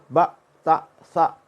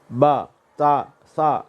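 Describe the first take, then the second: First: The vowels are cut off with a glottal catch. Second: The vowels end openly, with no glottal catch. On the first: The speaker calls it wrong. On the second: The speaker calls it right.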